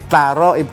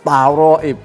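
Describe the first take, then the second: First: The first consonant is pronounced thin and light. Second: The first consonant is pronounced thick and heavy. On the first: The speaker calls it right. "taroib tipis" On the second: The speaker calls it wrong. "bukan taroib. Terlalu tebal ya"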